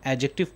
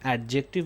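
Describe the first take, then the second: First: The d sound is left silent. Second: The d sound is clearly pronounced. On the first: The speaker calls it right. "यहाँ पे डी silent है" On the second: The speaker calls it wrong. "हम इसे एडजेक्टिव नहीं"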